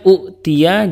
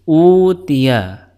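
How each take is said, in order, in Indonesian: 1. Hentian glotal mengikuti vokal pertama yang pendek. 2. Vokal pertama panjang tanpa hentian glotal. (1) "dua hamzah, yang pertama berharokat dan yang kedua sukun" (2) "digantikan dengan huruf mad"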